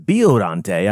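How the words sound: The name is pronounced the Japanese way. "I heard Japanese people pronounce it as Biollante"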